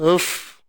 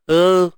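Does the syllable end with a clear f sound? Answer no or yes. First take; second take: yes; no. First: Lip touches teeth, ending in a clear f. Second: The lips stay apart, so no f sounds. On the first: The speaker calls it right. "Baru dapat" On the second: The speaker calls it wrong. "Ni saya buat jarak"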